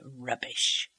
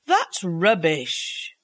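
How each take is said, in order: First: Barely voiced, softer rubbish; silently mouthed. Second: Slow, flat-out dismissive That's rubbish; scornful dismissal. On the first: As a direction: breathe rubbish with the lips, almost no voice. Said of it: "silently formed the word". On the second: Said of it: "Clovis said this time". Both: A narrator's reading.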